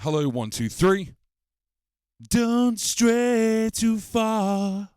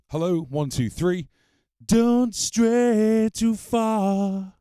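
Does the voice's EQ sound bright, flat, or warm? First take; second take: bright; warm. First: The voice has a brighter, crisper tone. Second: The voice has a warmer, fuller tone. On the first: "this is the bright tone" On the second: "This is the warm tone"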